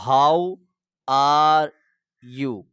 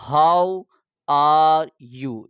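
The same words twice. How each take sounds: First: Each word set apart with pauses, how and are louder. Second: The whole phrase in one go, louder; full phrase demo. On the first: Teacher drilling the phrase for viewers, word by word. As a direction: separate the words clearly, one by one. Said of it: "پھر آپ نے لکھنا ہے you". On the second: Teacher giving the finished sentence to viewers, loud and clear. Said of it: "یہ جملہ بولنے کے بعد". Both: Shown as a demonstration.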